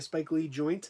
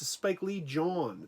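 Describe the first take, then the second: First: The last word is pronounced with an 'oint' ending. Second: The last word is pronounced like 'jawn', no 't'. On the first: "They used to say a Spike Lee joint" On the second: "That's how you're supposed to pronounce it. ... He was incorrect"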